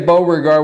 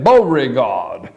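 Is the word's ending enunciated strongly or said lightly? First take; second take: lightly; enunciated. First: The ending of the word is said lightly. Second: The ending of the word is strongly enunciated. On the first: The speaker calls it wrong. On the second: The speaker calls it right.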